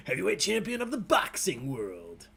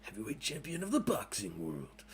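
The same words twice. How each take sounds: First: Hammed-up champion proclamation, laughing into it; grand announcer voice. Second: Low, quiet mock-superhero voice; Will Arnett as Batman. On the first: Host mocks own clumsy question wording, hammed-up announcer voice. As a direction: put on a mock-epic voice. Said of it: "You sound like, uh, Will Arnett as Batman". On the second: Host plays along with the comparison, low Batman impression. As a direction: drop it down into a brooding hero parody. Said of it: "Will Arnett as Batman".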